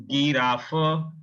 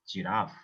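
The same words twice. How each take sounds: First: "Giraffe" with hard g and drawn-out final vowel; German pronunciation. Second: "giraffe" with soft j sound; lower, softer English "giraffe", ending on f; English pronunciation. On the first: Teacher shows learners the G word, German pronunciation. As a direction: stretch "Giraffe" as gee-RAH-fuh, hard g. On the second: Teacher translates the German word for learners, English pronunciation. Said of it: "This is giraffe". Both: Shown as a demonstration.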